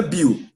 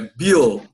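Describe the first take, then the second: First: "Bill" ending in a u sound, as "Biu"; wrong Brazilian Bill. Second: "Bill" with an English dark L at the end. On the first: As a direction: mispronounce "Bill" Brazilian-style, no L at the end. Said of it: "Não é Bill". ("Bill" à brasileira, com som de u no final) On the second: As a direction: close "Bill" on the L, not on a u glide. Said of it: "acaba com L". ("Bill" em inglês, com L no final) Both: Shown as a demonstration.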